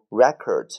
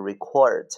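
First: The stress is on the first syllable. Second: The stress is on the second syllable. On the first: It is the noun meaning a music disc. "第二个record 就这个唱片是读record" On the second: It is the verb meaning to write or tape down. "然后这个记录下来读record"

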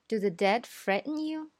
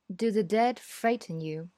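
First: It is said in an American accent. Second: It is said in a British accent. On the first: "所以美式英语呢，我们会这样说" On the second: "这是一个典型的英式英语的口音，偏钝"

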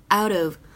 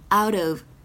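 First: The two words are linked into one. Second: The two words are linked into one.

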